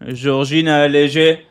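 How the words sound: The name is said with a French accent. The speaker calls it wrong. "like in a French accent"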